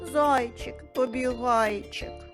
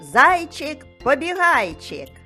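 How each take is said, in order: First: It is said in a sad, gloomy tone. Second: It is said in a cheerful, happy tone. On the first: "А тепер скажемо сумно" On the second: "Скажемо весело"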